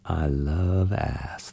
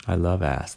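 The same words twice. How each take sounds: First: Very slow, low, soft murmur; slow low drawl. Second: Low, soft murmur. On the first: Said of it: "the voice said again". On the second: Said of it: "the voice came again". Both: A narrator's reading.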